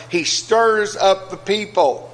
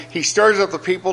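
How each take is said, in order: First: He stirs up the people drawn out slowly, weight on stirs; slowed-down preacher's echo of the verse; slow emphatic repeat. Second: Said in the usual way. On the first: Shown as a demonstration. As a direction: let "stirs" land, slow and deliberate. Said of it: "repeats the verse slowly". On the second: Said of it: "So Pilate said to".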